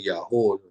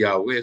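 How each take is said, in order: First: The name ends with a 'hoo' sound. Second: The name ends with a 'weh' sound. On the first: The speaker calls it right. "lebih bisa dibaca Yahoo daripada Yahweh" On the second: The speaker calls it wrong. "bacanya bukan Yahweh"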